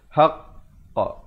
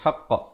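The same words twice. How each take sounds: First: The q sound is held briefly, then released. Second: The q sound is released without a hold. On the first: The speaker calls it right. "Dia mestilah haqqa, baru lepaskan" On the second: The speaker calls it wrong. "Bukan haqqa, haqqa, tak mau"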